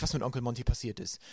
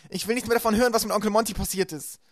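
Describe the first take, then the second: First: Gentle. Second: Much higher and louder, distraught; upset shouting. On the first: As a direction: set her right kindly. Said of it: "sagte Klaus sanft". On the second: Violet shouts at Klaus, distraught and loud. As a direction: refuse to hear any more. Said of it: "schrie Violet". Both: A narrator's reading.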